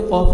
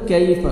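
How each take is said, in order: First: "कॉफ" with a thick k from far back; wrong heavy qaf. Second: "कैफ" with a light front k; thin kaf. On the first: Teacher showing the mistake, "कॉफ" with heavy qaf. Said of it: "कॉफ नहीं पढ़ना". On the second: Teacher correcting students, "कैफ" with thin kaf. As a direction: keep the k of "कैफ" thin, not qaf. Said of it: "काफ को बारीक पढ़ना है". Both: Shown as a demonstration.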